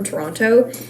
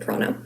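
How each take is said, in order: First: Pronounced the way outsiders say the name. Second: Pronounced the way locals say the name. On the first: Everyone can understand which place is meant. "how I'm pronouncing it like a non-local" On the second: It is how people from the city say it. "anyone who's from Toronto calls it"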